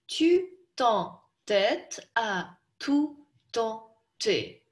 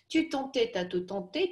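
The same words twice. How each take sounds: First: It is said slowly, syllable by syllable. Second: It is said quickly, in one smooth run. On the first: "давайте сначала по слогам прочтем" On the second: "И теперь быстрее"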